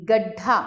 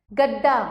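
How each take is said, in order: First: Said in the usual way. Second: गड्ढा said as "gad-daa"; wrong unaspirated sound. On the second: Shown as a demonstration. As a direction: drop the breath from ढ in गड्ढा. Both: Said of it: "नहीं, गड्ढा".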